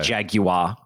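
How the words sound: Jaguar is said with a British pronunciation.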